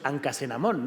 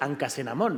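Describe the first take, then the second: First: The middle consonant is a hard k sound. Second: The middle consonant is a hard k sound.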